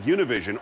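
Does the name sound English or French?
English. The name is said with a plain English sound.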